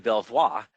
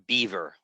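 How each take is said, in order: First: It is said with a French-style pronunciation. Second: It sounds like the English animal word beaver. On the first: "it's taken from the French, meaning beautiful view" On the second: "like the animal with a big flat tail"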